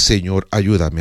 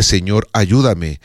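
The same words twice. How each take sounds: First: Said in the usual way. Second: A humble whispered-feeling prayer, unhurried; prayerful plea. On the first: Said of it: "Esta palabra es". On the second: Shown as a demonstration. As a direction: pray it slowly, from the heart.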